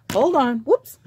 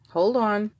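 First: Eager, louder and higher burst; excited. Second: Said in the usual way. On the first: Real, not acted. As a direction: rush in, giddy and fumbling. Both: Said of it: "Look, I'm getting excited".

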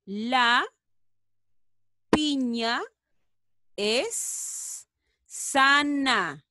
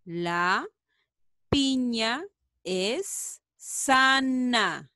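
First: Very slow, stretched words; very slow reading. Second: Very slow, even words; very slow again. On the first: Teacher models the sentence very slowly. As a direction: draw out each word. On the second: Teacher repeats the sentence very slowly. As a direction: stretch it out once more. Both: Shown as a demonstration. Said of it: "A ver".

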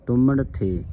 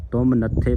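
First: ਤੁਮਨ ਥੇ joined as tuman, then a separate the; ਤੁਮਨ ਥੇ with a falling end; correct reading. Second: ਤੁਮ ਨੱਥੇ split as tum, then natthe; the deliberately wrong split ਤੁਮ ਨੱਥੇ; ਤੁਮ ਨੱਥੇ with the break after tum; wrong reading. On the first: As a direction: say ਤੁਮਨ ਥੇ with the break before the. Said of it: "ਇਸ ਦਾ ਸ਼ੁੱਧ ਉਚਾਰਨ ਹੈ ਤੁਮਨ". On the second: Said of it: "ਪਾਠ ਨਹੀਂ ਕਰਨਾ". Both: Shown as a demonstration.

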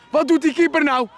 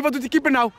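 First: Exasperated shout. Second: Said in the usual way. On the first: Acted. Commentator shouting at the keeper's blunder, exasperated.

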